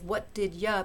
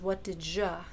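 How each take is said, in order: First: The d is followed by a y sound. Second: The d and y merge into a j sound. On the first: "that's d followed by ya" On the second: "in faster speech"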